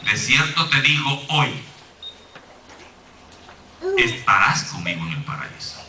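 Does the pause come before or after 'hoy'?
after. The pause comes right after 'hoy'.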